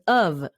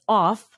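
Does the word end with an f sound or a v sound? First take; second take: v sound; f sound. First: The word ends with a v sound. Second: The word ends with an f sound. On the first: "America, it will be pronounced as of" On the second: "O F in India, you would pronounce this as off"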